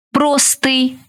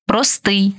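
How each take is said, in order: First: ПРОстий, stressed on the first syllable. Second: ПроСТИЙ, stressed on the final syllable; stress on last syllable. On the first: Teacher showing variant stresses to student, first-syllable stress on простий. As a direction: punch ПРО in простий. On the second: Teacher showing variant stresses to student, final stress on простий. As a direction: land on СТИЙ in простий. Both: Shown as a demonstration. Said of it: "Такий наголос ще називають варіантним".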